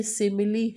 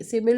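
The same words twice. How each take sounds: First: सिमिली in three syllables, ending in "lee"; सिमिली with the final E voiced as a clear "ee"; correct sounded-E reading. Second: सिमिल ending on L, no final vowel; सिमिल in two syllables, the "ee" ending left off; wrong silent-E reading. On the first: Teacher gives students the right reading, सिमिली with final "lee". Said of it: "ये सिमिली है". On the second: Teacher rejects a misreading for students, सिमिल with silent final E. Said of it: "सिमिल नहीं है". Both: Shown as a demonstration.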